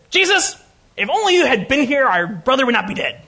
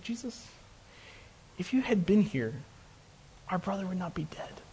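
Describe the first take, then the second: First: High, loud, indignant outburst; angry little lady. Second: Very soft, grieving plea; very sad. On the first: Martha reproaching Jesus over her dead brother, angry and high. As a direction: scold as an angry little lady, pitched up and forceful. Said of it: "imagine angry little lady". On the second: Grieving sister to Jesus over her brother, softly sad. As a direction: voice sunk to a hushed, sorrowful near-murmur. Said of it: "she was very sad". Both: Acted.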